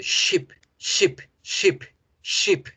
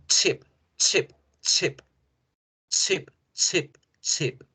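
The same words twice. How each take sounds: First: "ship" begun like shushing someone; long hissed sh into a short "ship"; silence-shushing sh. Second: "chip" begun like a sneeze, abrupt t-sh; short explosive ch on each "chip". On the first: Teacher contrasts ship with chip, shushing for silence. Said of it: "Con una hacemos el silencio". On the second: Teacher contrasts chip with ship, sneezing ch burst. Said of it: "hacemos el estornudo". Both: Shown as a demonstration.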